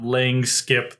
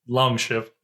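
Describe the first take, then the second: First: It is said with 'lang' and 'skip' sounds. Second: It is said with 'long' and 'ship' sounds. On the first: The speaker calls it wrong. "It's not lang skip" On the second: The speaker calls it right. "That is long ship"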